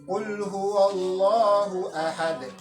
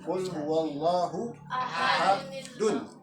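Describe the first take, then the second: First: The last word ends on a plain d. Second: The last word ends with an added nun. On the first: The reciter stops after this word. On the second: The reciter joins it to the next word.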